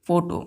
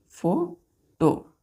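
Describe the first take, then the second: First: Said in the usual way. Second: "फोटो" split as फो... टो with a long pause; syllable by syllable. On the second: Shown as a demonstration. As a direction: say "फोटो" very slowly in two separate parts. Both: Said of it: "फोटो दो syllable का".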